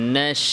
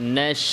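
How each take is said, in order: The two takes are said the same way.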